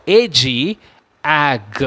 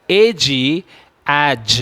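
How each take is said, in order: Both takes have the same delivery.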